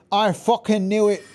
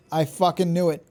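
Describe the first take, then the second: First: Louder, higher repeat of the line; triumphant I-told-you-so yell; vindicated shout. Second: Said in the usual way. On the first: Real, not acted. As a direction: crow that you called it.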